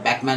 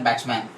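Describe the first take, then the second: First: The first syllable ends with a 'k' sound. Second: The first syllable ends with a 'ch' sound. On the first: "but Beckman is the pronunciation" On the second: "You can talk like Batchman"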